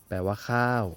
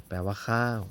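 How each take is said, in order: Both takes have the same delivery.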